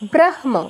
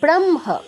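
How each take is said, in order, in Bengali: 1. হ ধ্বনিটি ম-এর আগে আসে। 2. হ ধ্বনিটি ম-এর পরে আসে। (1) "উচ্চারণ হওয়া উচিত ছিল ব্রাহ্ম" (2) "ম আগে, হ পরে"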